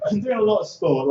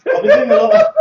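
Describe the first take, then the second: First: Said in the usual way. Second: High, loud excited start; mock hype. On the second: Comic boasting to the crowd, high loud hype. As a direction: burst out all pumped up.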